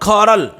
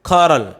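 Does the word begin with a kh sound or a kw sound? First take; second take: kh; kh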